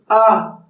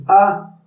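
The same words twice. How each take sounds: First: "A" open, held and projected; fully voiced vowel. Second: "A" short and understated; weakly pronounced vowel. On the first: Coach shows correct vocalization, a full held "A". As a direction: give "A" its full, sustained sound. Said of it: "se dice A". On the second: Coach shows how not to vocalize, a weak short "A". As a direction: say "A" small, without projecting it. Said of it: "practicar la pronunciación de las vocales". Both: Shown as a demonstration.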